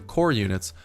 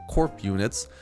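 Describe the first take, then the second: First: The first word ends without a p sound. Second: The first word ends with a p sound.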